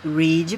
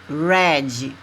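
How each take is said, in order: First: It is pronounced as the present-tense form. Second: It is pronounced as the past-tense form. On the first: The action happens now or in general. "Read presente, infinitivo" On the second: The action happened before. "Read passado"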